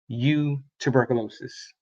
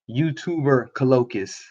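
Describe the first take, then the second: First: The name is split after a short 'you'. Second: The name is split after a full 'YouTuber'. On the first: The speaker calls it right. "versus just you tuberculosis" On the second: The speaker calls it wrong. "I was uh saying the YouTuber part and then trying to say colloquius"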